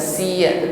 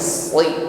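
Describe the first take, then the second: First: The s sound is light and thin. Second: The s sound is heavy and thick. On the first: The speaker calls it wrong. "bukan siya" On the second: The speaker calls it right. "sli tetap bunyinya tebal"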